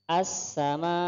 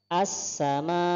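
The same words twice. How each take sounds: The two takes are said the same way.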